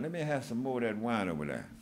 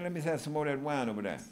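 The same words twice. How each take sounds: First: The phrase is spoken slowly and deliberately. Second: The phrase is spoken quickly and casually.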